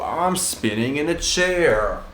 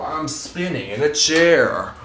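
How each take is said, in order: First: Slow, drawn-out words mid-spin; spinning in office chair. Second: Slow words while spinning round; spinning in office chair. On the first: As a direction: stretch it out while spinning round. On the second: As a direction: drawl it out mid-spin. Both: Real, not acted.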